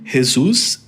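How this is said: The name is said with Spanish pronunciation. "em espanhol"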